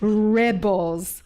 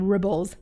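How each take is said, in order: First: The first vowel sounds like 'eh'. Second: The first vowel sounds like 'ih'. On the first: This is the intended name. The speaker calls it right. "I'm saying rebels" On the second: The listener misheard the name. The speaker calls it wrong. "someone thought I was saying ribbles"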